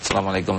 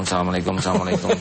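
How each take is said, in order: First: A quick, low salam; mock a rushed ending of prayer; imitating a hurried salam. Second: Assalamualaikum, assalamualaikum blurred together very fast; mock gabbled salam. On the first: Kiai mocks worshippers ending prayer in haste, hurried salam. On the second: Kiai mocks worshippers racing to finish prayer, very fast salam. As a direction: rattle the double salam off as if finishing in a rush. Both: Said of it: "saking cepatnya begini".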